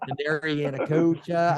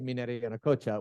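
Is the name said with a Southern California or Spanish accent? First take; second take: Southern California; Spanish. First: The name is said with a Southern California accent. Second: The name is said with a Spanish accent. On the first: "You did it right" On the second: "more of a Spanish pronunciation"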